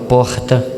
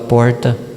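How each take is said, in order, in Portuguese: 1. É falado com sotaque baiano. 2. É falado com sotaque paulistano. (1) "O paulista vai para lá e começa a falar" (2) "O baiano vem para cá e começa a falar"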